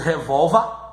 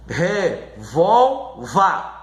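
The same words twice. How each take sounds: First: Said in the usual way. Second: "revolva" slowly split as re-VOL-va; syllable by syllable. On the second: Shown as a demonstration. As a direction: sound out "revolva" in three separate slow pieces. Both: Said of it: "na sílaba mais forte".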